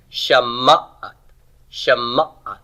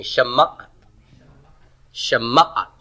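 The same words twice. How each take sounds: First: Shama'at with the stress on the second root, ma'at; stress on root two. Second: Shama'at said again with the stress on ma'at; repeat after me. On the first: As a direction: model Shama'at slowly for the class to copy. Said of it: "the accent now is going to be here on root two". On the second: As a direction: lead the class in Shama'at. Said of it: "So say that with me". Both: Shown as a demonstration.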